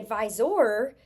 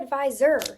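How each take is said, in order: First: The last syllable is said with a full 'or'. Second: The last syllable is said with a weak 'er'. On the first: The speaker calls it wrong. "We don't say advisor" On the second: The speaker calls it right. "We say advisor"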